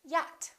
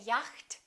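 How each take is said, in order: First: The CH in the middle is not pronounced. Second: The CH in the middle is pronounced. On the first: The speaker calls it right. "the silent C H" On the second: The speaker calls it wrong. "We don't say"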